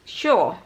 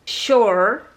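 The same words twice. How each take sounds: First: British accent, with the R sound barely pronounced. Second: American accent, with the R sound clearly pronounced.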